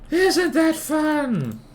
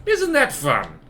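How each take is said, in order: First: Very high, slow mock-cheery drawl; sarcastic. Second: Said in the usual way. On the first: Shown as a demonstration. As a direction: sing it out in dripping sarcasm. Repeated sarcastic question.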